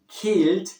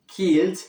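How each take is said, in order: First: The word begins with a k sound. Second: The same.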